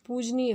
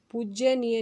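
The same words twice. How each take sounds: First: पूजनीय said poo-ja-nee-ya, no y; पूजनीय, clean and correct; correct form said. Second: पूज्यनीय said pooj-ya-nee-ya, with the y; wrong form पूज्यनीय with an extra ya; पूज्यनीय, the mistake with ya. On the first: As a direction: correct पूजनीय without the extra ya. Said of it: "पूजनीय होता है". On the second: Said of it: "पूज्यनीय नहीं होता". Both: Shown as a demonstration.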